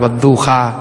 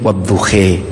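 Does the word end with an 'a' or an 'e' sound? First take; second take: a; e. First: The word ends with an open 'a' vowel. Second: The word ends with an 'e' vowel.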